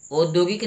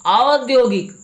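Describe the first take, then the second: First: औद्योगिक opened with "o", as "od-yogik"; plain round "o" starting औद्योगिक; mispronounced औद्योगिक. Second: औद्योगिक opened with "au", high and loud; corrected pronunciation. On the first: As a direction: say औद्योगिक as "OHD-yo-gik". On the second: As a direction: say औद्योगिक as "AA-od-yo-gik". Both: Shown as a demonstration. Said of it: "औद्योगिक नहीं".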